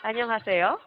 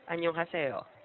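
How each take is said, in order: First: It is said with a rise, like a question. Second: It is said flat, like a plain greeting.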